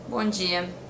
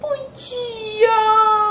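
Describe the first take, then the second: First: It is said in a serious, cold tone. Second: It is said in a sweet, playful tone.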